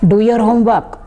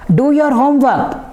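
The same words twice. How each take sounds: First: It is said in a calm, ordinary voice. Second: It is said in a louder, raised voice. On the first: A first, ordinary request. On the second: The request is now serious and insistent.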